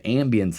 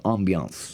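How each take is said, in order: First: It is said in a plain Midwestern way. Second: It is said in a fancier French-like way. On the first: "ambience is how you say it in the Midwest" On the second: "as they say"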